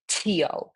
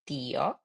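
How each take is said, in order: First: The t sound is hard and strong. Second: The t sound is very soft. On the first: The speaker calls it wrong. "you don't say tío" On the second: The speaker calls it right. "the pronunciation for the T is super soft"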